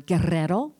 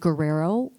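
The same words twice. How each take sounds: First: The R sounds are trilled. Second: The R sounds are not trilled.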